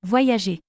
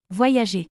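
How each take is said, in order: Both takes have the same delivery.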